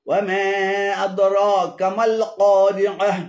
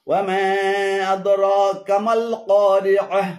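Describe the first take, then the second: No difference in how they are said.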